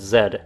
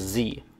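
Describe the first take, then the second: First: The letter is said the non-American way. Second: The letter is said the American way. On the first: "when I pronounced it Z" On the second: "I'm going to pronounce it the American way"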